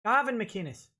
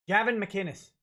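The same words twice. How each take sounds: First: "Gavin" with a broad "ah" as first vowel; altered vowel in Gavin. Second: Said in the usual way. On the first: Shown as a demonstration. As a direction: say "Gavin" as "GAH-vin". Second, altered take of the name.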